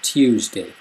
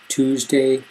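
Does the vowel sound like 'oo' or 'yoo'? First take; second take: yoo; oo. First: The vowel has a y sound before oo. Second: The vowel is a plain oo sound.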